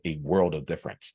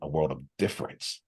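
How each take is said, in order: First: The stress falls on the word world. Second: The stress falls on the word difference. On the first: "I actually emphasize world" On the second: "emphasize a different word"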